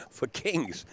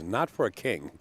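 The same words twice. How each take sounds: First: "kings" said with a laugh, higher and falling; stress on kings. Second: "not" hit hard, then "a king" falls; stress on not. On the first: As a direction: land on the plural "kings". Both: Real, not acted.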